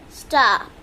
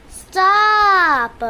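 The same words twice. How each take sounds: First: Said in the usual way. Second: Loud stop. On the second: Real, not acted. Repeated, louder command.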